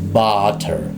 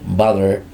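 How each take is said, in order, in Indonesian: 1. Bunyi t di tengah adalah t yang jelas. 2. Bunyi t di tengah terdengar seperti d yang cepat. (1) "tapi di dalam fonetiknya ketika secara formal maka dibacanya butter" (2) "dalam percakapan biasanya Amerika ketika menemukan double T bisa di, flap T ya, atau dirubah biasanya suaranya menjadi D"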